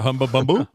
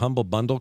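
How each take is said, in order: First: It is said imitating a French accent. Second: It is said in the speaker's plain accent.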